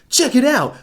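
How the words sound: It is read in a cheesy Disney voice.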